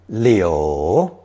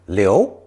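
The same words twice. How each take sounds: First: The syllable is said with the third tone. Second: The syllable is said with the second tone. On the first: It means willow tree. "It's pronounced third tone" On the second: It means leave behind or remain. "It's pronounced second tone"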